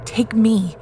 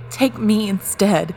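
First: Louder, higher, strained plea; choked out. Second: Louder, higher, pleading cry; choked out. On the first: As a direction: choke the words out in desperation. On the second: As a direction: force it out, desperate and loud. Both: Acted. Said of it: "Jake choked out".

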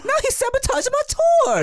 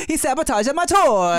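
First: Put-on high, laughing Japanese accent; mock Japanese accent. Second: Put-on high, laughing accent; Italian-sounding Japanese accent. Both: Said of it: "my Japanese accent came off kind of Italian".

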